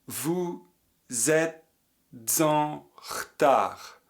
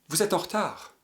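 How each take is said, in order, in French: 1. Les mots sont reliés par une liaison. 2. Les mots sont reliés par un enchaînement. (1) "Avec la liaison" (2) "Enchaînement"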